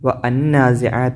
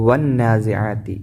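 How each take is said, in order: First: Wa is said apart, with an audible 'an'. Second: Wa runs straight into a doubled n. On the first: The speaker calls it wrong. "ഇവിടെ ഒരിക്കലും വ അന്നാസിആതി എന്നോതൂല" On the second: The speaker calls it right. "ഈ അലിഫ് ലാം ഉച്ചരിക്കൂല"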